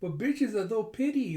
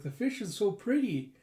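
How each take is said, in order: First: Put-on high, garbled kid through a snorkel; excited, muffled consonants, like mouth blocked; excited snorkel-mask talk. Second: Put-on high, clearly spoken kid gushing; eager little-girl voice; excited child. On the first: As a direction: gush with the mouthpiece in. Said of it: "getting so excited with her snorkeling mask going". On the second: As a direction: gush excitedly in clear words. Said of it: "Anya getting so excited".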